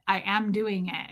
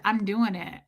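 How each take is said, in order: First: "am" stressed, words spaced out slowly; insistent repeat. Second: Said in the usual way. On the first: Retold or imitated. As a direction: lean firmly on "am", slower. Retold insistence, second take.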